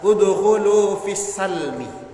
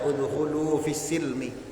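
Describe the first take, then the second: First: The vowel after the s is a. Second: The vowel after the s is i. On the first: This is another accepted reading of the verse. "dengan memfathahkan huruf sin" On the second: This is the reading the community's teachers use. "Pakai yang mengkasrohkannya"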